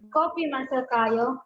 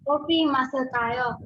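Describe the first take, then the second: First: It is said with a question intonation. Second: It is said with a statement intonation. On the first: It asks whether to drink coffee. "the intonation will turn it into into uh, interrogative sentence like" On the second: It is a suggestion to drink coffee. "That is the sentence of co- drink. Let's drink coffee"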